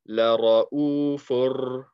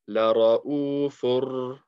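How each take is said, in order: No difference in how they are said.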